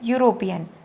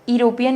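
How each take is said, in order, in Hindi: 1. शब्द 'yoo' ध्वनि से शुरू होता है। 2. शब्द 'ee' स्वर ध्वनि से शुरू होता है। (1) "हम उसको बोलते हैं यूरोपियन" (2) "नहीं बोल रहे हैं"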